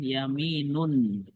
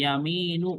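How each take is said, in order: First: The word ends with an added n sound. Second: The word ends on a vowel without n. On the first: The speaker calls it right. "Harus tanwin" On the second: The speaker calls it wrong. "Ini nggak boleh dibaca gini. ... ya salah"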